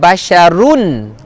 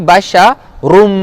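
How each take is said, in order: First: The word ends with a clear n sound. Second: The word ends merged into an m sound. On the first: The speaker calls it wrong. "bukan basyarun, run" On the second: The speaker calls it right. "tapi basyarum, rum masuk dalam mim"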